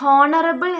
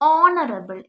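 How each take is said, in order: First: The word starts with an h sound. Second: The word starts directly with a vowel. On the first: The speaker calls it wrong. "ഹോണറബിൾ എന്ന് പറയില്ല" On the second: The speaker calls it right. "ഓണറബിൾ എന്ന് പറയണം"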